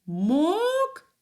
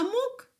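First: Мок stretched out with strong stress; stressed syllable. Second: Мок said short, without stress; unstressed syllable. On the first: Teacher showing children the stressed syllable, мок drawn out. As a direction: hit мок and hold it long. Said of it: "другий склад мок наголошений". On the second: Teacher contrasting the unstressed syllable, мок kept short. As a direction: keep мок brief and unweighted. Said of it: "мок не наголошений". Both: Shown as a demonstration.

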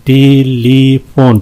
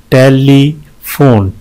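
First: "टेलीफोन" slowly, in three even beats; syllable breakdown. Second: "टेलीफोन" slowly, with a gap before the last syllable; syllable breakdown. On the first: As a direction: give each syllable of "टेलीफोन" its beat. ("टेलीफोन" तीन बराबर हिस्सों में) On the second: ("टेलीफोन" धीरे, आखिरी हिस्सा अलग) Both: Shown as a demonstration. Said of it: "तीन है इसमें".

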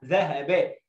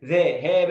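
First: ذهب joined as dhahaba with short vowels; corrected reading. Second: ذهب with stretched syllables, ذا ها با; wrong reading. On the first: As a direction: model ذهب as one whole word, unbroken. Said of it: "عايز أسمع الصوت ده". (نطق ذهب موصولة بحركات قصيرة) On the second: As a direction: drag each short vowel of ذهب into a long one. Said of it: "لا". (نطق ذهب خطأً بمد الحركات) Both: Shown as a demonstration.

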